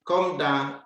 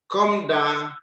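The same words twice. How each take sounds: The two takes are said the same way.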